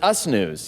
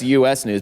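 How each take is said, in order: First: The first word is said as one word. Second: The first word is spelled out as two letters. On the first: It refers to the hosts themselves. The speaker calls it right. "but it's us news" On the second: It refers to the country. The speaker calls it wrong. "people think it's U S news"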